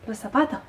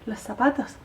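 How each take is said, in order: First: The final S sound is aspirated or dropped. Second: The final S sound is aspirated or dropped.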